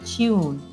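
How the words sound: A y-glide is heard before the vowel. "in British English"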